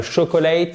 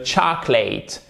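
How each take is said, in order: First: "chocolate" as sho-ko-LATE in three syllables; "chocolate" with French sh and every vowel; mispronounced demo. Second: "chocolate" as CHAH-klit, middle vowel dropped; "chocolate" stressed first with an open ah; correct English pronunciation. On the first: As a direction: sound the middle o in "chocolate". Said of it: "c'est pas le chocolate". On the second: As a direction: squeeze "chocolate" into two syllables. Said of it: "on ne la prononce pas". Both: Shown as a demonstration.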